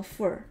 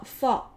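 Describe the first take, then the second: First: "for" reduced to "fur"; weak form of for. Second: Said in the usual way. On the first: Shown as a demonstration. Teacher showing learners weak "fur" inside a sentence. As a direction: weaken the vowel of "for" to "fur". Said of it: "弱读成fur". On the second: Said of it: "fall在句中弱读成fur".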